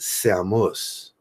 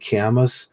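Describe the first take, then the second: First: The name begins with an S sound. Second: The name begins with a K sound. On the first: The speaker calls it right. "they would pronounce it Samus. So it's an S A M" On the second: The speaker calls it wrong. "I say Camus, and I found out that that's altogether wrong"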